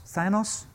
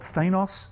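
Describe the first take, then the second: First: Thanos said THAN-us, softer and questioning; short A in Thanos. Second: Thanos said THAY-noss; long A in Thanos. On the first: Preacher checks the name with listeners, Thanos as THAN-us. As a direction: say Thanos with a first syllable like "than". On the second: Preacher tries a comic villain's name, Thanos as THAY-noss. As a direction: say Thanos with a first syllable like "they". Unsure how the name is pronounced. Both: Real, not acted.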